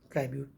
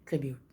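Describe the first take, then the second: First: The first syllable has a long 'ai' vowel. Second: The first syllable has a short 'i' vowel. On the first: The speaker calls it wrong. "ट्राइब्यूट का इस्तेमाल गलत है" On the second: The speaker calls it right. "ट्रिब्यूट कहते हैं"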